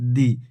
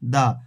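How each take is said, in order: First: The word ends in a long 'ee' vowel. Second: The word ends in a short 'uh' vowel. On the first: It comes before a word starting with a vowel. "যদি vowel থাকে তখন হবে দি" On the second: It comes before a word starting with a consonant. "কনসোনেন্ট থাকবে তখন তার আগে যদি টিএইচই থাকে তখন তখন তার উচ্চারণ হবে দা"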